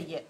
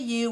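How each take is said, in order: First: The word is reduced to a weak form. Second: The word is said fully and clearly. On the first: It refers to anyone in general. The speaker calls it right. "we say you. So we make it very weak" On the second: It refers to a specific person. The speaker calls it wrong. "we don't say you"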